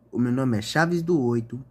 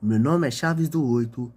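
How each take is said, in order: Both takes have the same delivery.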